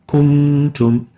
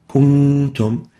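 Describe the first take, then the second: No difference in how they are said.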